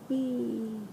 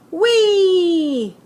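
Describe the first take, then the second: First: The word is said quietly. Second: The word is said loudly.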